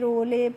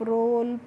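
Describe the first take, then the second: First: The final e is sounded as a vowel. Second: The word ends with no final vowel. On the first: The speaker calls it wrong. "इस तरीके से नहीं पढ़ना है" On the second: The speaker calls it right. "कैसे पढ़ना है"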